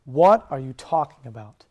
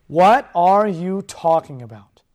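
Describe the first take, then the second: First: Slow emphatic title; What drawn out and heavy; sermon title, slow. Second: Slow, louder emphatic title; What hit hard and stretched; title repeated louder. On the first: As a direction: land the title slowly. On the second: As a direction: proclaim it again louder. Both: Shown as a demonstration. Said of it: "the title of my message is simply this".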